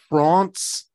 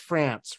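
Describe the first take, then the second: First: The vowel is open and broad, like 'father'. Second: The vowel is flat and front, like 'cat'. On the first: This is how the name sounds in the race name. "the only time that we ever pronounce it France is when it's the Tour de France" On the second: This is how the country is usually said. "Otherwise, it's always France"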